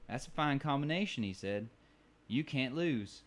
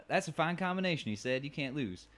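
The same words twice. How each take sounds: First: Lightly voiced bartender accent on "That's a fine combination"; a pleased old bartender, mildly put on. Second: Put-on higher re-take of "That's a fine combination" in a bartender accent; redone bartender accent. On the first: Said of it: "You hear that accent". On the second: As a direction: hear it again, a bit higher and more put on. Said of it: "I just went with the one I felt".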